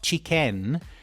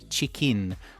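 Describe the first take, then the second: First: The last syllable is said like 'ken'. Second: The last syllable is said like 'kin'. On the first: The speaker calls it wrong. "It's not chicken, even though it is spelled K E N" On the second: The speaker calls it right. "There is an in in a chicken"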